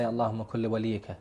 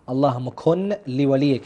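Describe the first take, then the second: First: The n merges into the l, giving kulli. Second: The n is kept clearly before li. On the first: The speaker calls it wrong. "that's a total wrong pronunciation" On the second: The speaker calls it right. "we have to actually make sure"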